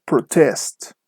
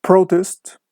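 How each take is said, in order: First: ProTEST, second syllable drawn out; verb stress. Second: PROtest, high first syllable; noun stress. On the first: Teacher shows students the verb form, slow stress on TEST in "protest". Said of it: "the stress is on the second syllable". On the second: Teacher shows students the noun form, stress on PRO in "Protest". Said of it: "the stress is on the first syllable". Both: Shown as a demonstration.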